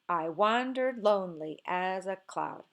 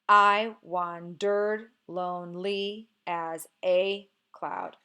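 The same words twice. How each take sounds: First: Stress falls on the second syllable of each pair. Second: Stress falls on the first syllable of each pair. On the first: The speaker calls it right. "when you try it the other way ... Now it feels more natural" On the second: The speaker calls it wrong. "Can you force this word, this line to be stressed, unstressed? ... It sounds kind of robotic"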